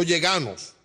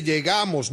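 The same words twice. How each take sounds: First: "llegamos" said with N for M; mispronunciation. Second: "llegamos" with a clear M; correct pronunciation. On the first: Judge quoting the mistake, "llegamos" ending in -nos. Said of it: "no llegamos". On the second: Judge correcting the defendant, "llegamos" with M. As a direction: say "llegamos" ending in -mos. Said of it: "digo que se dice llegamos". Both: Shown as a demonstration.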